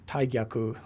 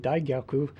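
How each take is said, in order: First: The word begins with a voiceless T sound. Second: The word begins with a voiced D sound. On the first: The speaker calls it right. "it's Taigyaku with the T is the correct pronunciation" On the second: The speaker calls it wrong. "or that it should be Daigyaku"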